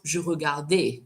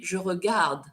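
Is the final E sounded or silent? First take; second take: sounded; silent. First: The final E is sounded as a vowel. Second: The final E is silent. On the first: The speaker calls it wrong. "And not" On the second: The speaker calls it right. "The E is silent"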